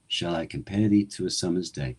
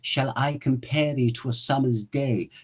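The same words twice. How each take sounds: First: The voice is lower, resonating near the collarbone. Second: The voice is higher, resonating further up. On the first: "my natural speaking voice is a little lower" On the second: "I speak Shakespeare up here"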